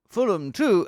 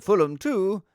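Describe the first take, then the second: First: "two" lifted in a rising results-reader tune; classified-results tune. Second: "two" high, then falling; results-reader cadence, higher with falling "two"; corrected results tune. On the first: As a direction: read the score with "two" left hanging upward. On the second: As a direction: read the score with a drop on "two". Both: Shown as a demonstration. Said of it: "it's slightly different than that".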